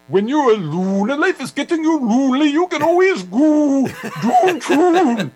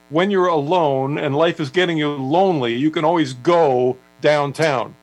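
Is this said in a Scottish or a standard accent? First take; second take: Scottish; standard. First: It is said in a thick Scottish accent. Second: It is said in a plain, non-Scottish accent. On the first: "with his Scottish accent, it was" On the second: "the lyric is"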